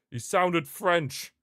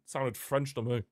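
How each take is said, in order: First: "sounded French" drawn out, high and loud; emphatic insistence. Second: Said in the usual way. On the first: Real, not acted. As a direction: slowly punch out "sounded French", raised voice. Insists on it, repeating louder.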